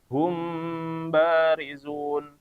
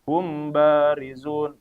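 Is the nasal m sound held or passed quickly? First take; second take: held; quick. First: The nasal m sound is held before b. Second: The m moves straight into b without holding. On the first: The speaker calls it right. "ditahan ya" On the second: The speaker calls it wrong. "ini keliru"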